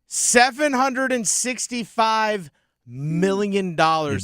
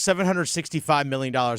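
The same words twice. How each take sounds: First: It is said big, slow and dramatic. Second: It is said quickly and flatly, without emphasis. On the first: The speaker calls it right. "you got to say it bigger than that" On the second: The speaker calls it wrong. "You can't just breeze through"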